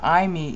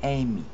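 First: The first vowel is not an 'ay' sound. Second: The first vowel is an 'ay' sound. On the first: The speaker calls it wrong. ""aimi" is the Erasmian pronunciation of it, and the Erasmian pronunciation is wrong" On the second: The speaker calls it right. "It should be "aimi." the EI sound is an A in classical Greek"

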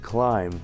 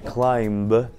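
First: The final b is silent. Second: The final b is pronounced. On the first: The speaker calls it right. "нужно говорить" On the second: The speaker calls it wrong. "Вместо"

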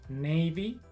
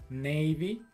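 The two takes are said the same way.

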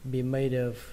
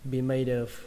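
The two takes are said the same way.

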